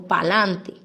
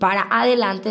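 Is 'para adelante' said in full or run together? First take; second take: run together; full. First: The words are shortened and merged together. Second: Both words are said fully and separately. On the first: Informal, careless usage. The speaker calls it wrong. "cuando unimos las palabras" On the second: Formal, proper usage. The speaker calls it right. "en vez de decir"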